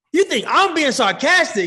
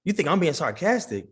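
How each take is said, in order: First: Loud, high-pitched indignant challenge; mock outrage. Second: Said in the usual way. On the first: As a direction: blow up at the accusation, playfully.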